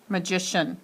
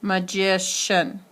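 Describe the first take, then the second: First: Said in the usual way. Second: "magician" drawn out slowly on the second syllable; stress on magician's middle syllable. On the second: Shown as a demonstration. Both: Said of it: "accent on that word now".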